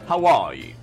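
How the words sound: The stress falls on the word are. It is a first greeting. "always on the R"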